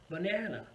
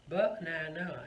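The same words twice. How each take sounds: First: "banana" as ba-NA-na; stress on second syllable. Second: "banana" as BA-na-na, first syllable punched; unnatural stress. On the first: Teacher models how a native speaker says it, middle stressed. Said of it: "it's on the second syllable". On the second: Teacher sets up the example word, first syllable stressed. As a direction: hit the opening syllable of "banana". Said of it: "a native speaker would say it". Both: Shown as a demonstration.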